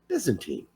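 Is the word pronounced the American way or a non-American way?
American. The word has an American pronunciation. "We say Byzantine"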